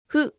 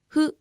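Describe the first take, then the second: First: The first sound falls between h and f. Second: The first sound falls between h and f.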